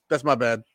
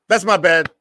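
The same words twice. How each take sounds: First: Said in the usual way. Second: Louder and higher, owning the mistake; loud admission. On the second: Real, not acted. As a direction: call out your own error, loudly.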